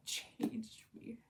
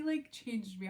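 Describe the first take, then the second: First: A reverent, voiceless aside; awed whisper. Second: Said in the usual way. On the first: Real, not acted. To viewers about the Beartown trilogy, awed whisper. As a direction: breathe it out in a hushed whisper.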